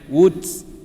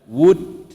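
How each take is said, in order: First: The final t ends with a hissing s sound. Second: The final t ends with only a breath. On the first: The speaker calls it wrong. "bukannya woods" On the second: The speaker calls it right. "Huruf ta dia angin saja"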